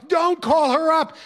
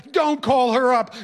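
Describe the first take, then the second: First: Higher and slower, stretched-out begging; teen begging his teacher again, higher and slower; more desperate wail. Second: Wailing plea. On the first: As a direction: plead harder, drawing it out. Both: Retold or imitated. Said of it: "the wailing started again".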